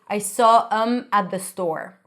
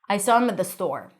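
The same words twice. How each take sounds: First: The reduced sentence is said slowly. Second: The reduced sentence is said quickly. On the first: The speaker calls it wrong. "You don't want to say" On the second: The speaker calls it right. "it really has to be pronounced quickly"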